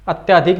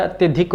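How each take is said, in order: First: अत्याधिक with a long "yaa", at-yaa-dhik; wrong form said aloud. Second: अत्यधिक with a short "ya", at-ya-dhik; correct form said aloud. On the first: Hindi teacher showing students the wrong form, with a long "yaa". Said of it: "नहीं होता है". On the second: Hindi teacher giving students the correct form, with a short "ya". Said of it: "होता है". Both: Shown as a demonstration.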